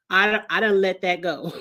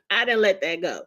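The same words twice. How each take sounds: First: Said in the usual way. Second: Chuckling it again; amused repeat; laughing. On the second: Real, not acted.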